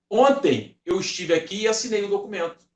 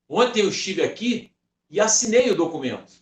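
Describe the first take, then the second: First: The stress is on "ontem". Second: The stress is on "assinei".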